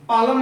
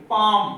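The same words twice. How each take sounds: First: "पालम" with the L sounded; wrong pronunciation. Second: "पाम" loud, long vowel and no L; silent L. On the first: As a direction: show the mistake "पालम", L fully pronounced. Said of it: "पालम नहीं बोलेंगे". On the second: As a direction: model "पाम" firmly, L left out. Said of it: "क्या बोलेंगे?". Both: Shown as a demonstration.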